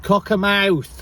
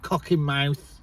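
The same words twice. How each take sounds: First: "Cockermouth" drawn out slowly, higher, middle syllable a light "-er-"; correct pronunciation. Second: "cock in mouth" said as three separate words; mimicked mispronunciation. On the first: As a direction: say "Cockermouth" slowly as one name, correcting someone. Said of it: "not cock, cock in mouth". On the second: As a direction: quote the mistaken "cock in mouth", with "in" in the middle. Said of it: "not cock". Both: Shown as a demonstration.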